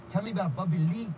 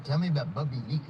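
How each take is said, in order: First: Imitating a fan's Asian accent. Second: Said in the usual way. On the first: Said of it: "when you did the accent". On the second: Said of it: "you said no accent".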